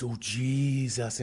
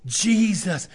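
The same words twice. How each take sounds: First: Slow, limp "Oh, Jesus" without conviction; half-hearted. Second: "Jesus" called out high and loud; with conviction. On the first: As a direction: drag out "Jesus" weakly, not meaning it. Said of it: "No, say what I'm saying". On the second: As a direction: proclaim "Jesus" like you mean it. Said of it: "say it like you mean it". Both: Retold or imitated.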